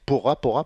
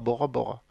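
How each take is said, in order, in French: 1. Le nom commence par un son P. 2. Le nom commence par un son B. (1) "en tahitien, ça se dit Pora Pora" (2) "pas Bora Bora"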